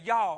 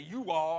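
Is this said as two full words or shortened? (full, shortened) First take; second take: shortened; full. First: It is squeezed into one short syllable. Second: It is said as two full separate words. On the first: "I shorten it up a little bit" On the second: "I don't say you all"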